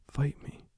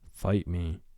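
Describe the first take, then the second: First: It is said in an anime-style voice. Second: It is said in a monstrous Vecna voice.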